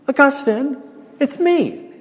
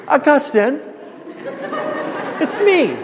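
First: Put-on high, pleading call of an old mistress; hammed-up mistress voice. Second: Hammed-up mistress voice again. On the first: Preacher plays the old mistress grabbing Augustine, high hammed-up call. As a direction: act out the woman catching his shoulders. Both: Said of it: "You like this acting job I'm doing?".

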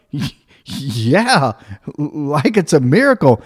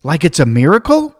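First: Stuttered start, "miracle" falling as an answer; stammer, then go along with MIRACLE, tune dropping; acted halting confirmation, "miracle" with a falling end; hesitant agreement. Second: "miracle" rising as a loud, hopeful question; imitated kid suggesting "miracle?" with a rise; prompting question. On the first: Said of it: "And I was like". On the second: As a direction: offer MIRACLE as a leading question, tune going up. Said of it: "she looked at me and she goes".

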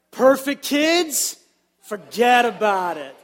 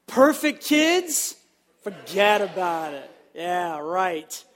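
First: Put-on louder New York "Perfect kids, forget about it"; New York accent. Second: Put-on slow, drawn-out New York "Perfect kids, forget about it"; New York accent. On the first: Pastor leading the congregation in New York style, louder accent. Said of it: "let's say this together". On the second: Pastor urging a better second try, New York accent. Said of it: "we can do it a little bit better". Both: Shown as a demonstration.

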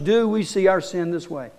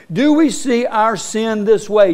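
First: Softer, searching repeat. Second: Said in the usual way. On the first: Shown as a demonstration. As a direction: ask it again more quietly, inward.

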